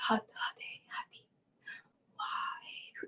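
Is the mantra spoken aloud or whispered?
whispered. The mantra is whispered with a breathy voice.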